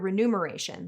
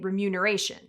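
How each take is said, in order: First: The middle sounds like 'nume', as in numeral. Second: The middle sounds like 'mune', with m first. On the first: The speaker calls it wrong. "like numeral" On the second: The speaker calls it right. "it's M U N, not N U M, so we should all be saying"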